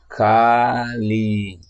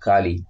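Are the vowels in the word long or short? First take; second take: long; short. First: Both vowels are held long. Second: Both vowels are kept short. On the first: It names the goddess. "tiene una A y una I de doble duración" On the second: It means deterioration and degradation. "con una A y una I de sonido corto"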